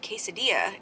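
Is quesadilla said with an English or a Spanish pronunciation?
English. The word is said with an English pronunciation. This is the way the speaker might say it. "that might sound s- strange to you guys"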